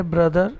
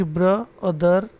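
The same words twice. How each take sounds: First: Said in the usual way. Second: ब्र and दर said as two separate syllables; teacher separating ब्र from दर; split into syllables. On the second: Shown as a demonstration. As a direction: break the word after ब्र, then say दर. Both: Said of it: "ब्र और दर बोलेंगे".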